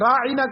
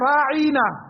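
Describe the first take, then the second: First: The vowels are kept short and plain. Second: A vowel is drawn out longer, twisting the word. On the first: Please pay attention to us. "राइना का लफ्ज ये है" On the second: O our shepherd, or O fool. "जुबान को घुमा कर कहते थे राइना"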